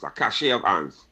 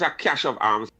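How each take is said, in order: First: The word cache does not sound like cash. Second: The word cache sounds like cash. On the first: The speaker calls it right. "it's cache" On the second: The speaker calls it wrong. "not pronounced cash"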